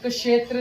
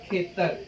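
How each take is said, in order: First: The word begins with a 'ksh' cluster. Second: The word begins with a plain 'kh' sound. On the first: The speaker calls it wrong. "इसको हम क्षेत्र नहीं बोलेंगे" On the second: The speaker calls it right. "Punjabi में इसको बोला जाएगा खेतर"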